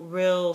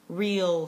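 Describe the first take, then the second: First: The vowel is short and lax, as in fill. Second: The vowel is long and tense, as in feel. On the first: This is how the speaker does not say it. "not fill, real, still" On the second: This is how the speaker normally says it. "I'm pretty sure I say feel, real, steel"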